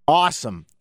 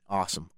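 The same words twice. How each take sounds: First: "Awesome" said as a keen North American exclamation; hammed-up North American "Awesome". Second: Said in the usual way. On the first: Shown as a demonstration. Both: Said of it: "I can only do awesome as an expressive, positive word".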